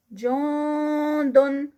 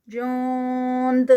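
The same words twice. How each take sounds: First: جوندن drawn out, the ن hidden in the nose; recited continuous form. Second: جوند ending on a bouncing echoed د; recited stop form. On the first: Teacher repeating the continuous form slowly. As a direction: chant جوندن slowly with a nasal ending. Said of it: "Quran recitation demo". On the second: Teacher repeating the stopping form. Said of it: "اینڈ پہ دال کا قلقلہ". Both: Shown as a demonstration.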